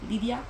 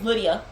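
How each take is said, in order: First: The name is said with a Spanish pronunciation. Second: The name is said with an English pronunciation. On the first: It is how the family says the name. The speaker calls it right. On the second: It is how outsiders say the name. The speaker calls it wrong. "that's not what we call her"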